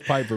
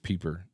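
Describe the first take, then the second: First: The first vowel sounds like "eye". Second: The first vowel sounds like "ee". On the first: This is how the name is really said. The speaker calls it right. "it's Piper" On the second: This is how the phone's voice says the name. The speaker calls it wrong. "Siri says Peeper"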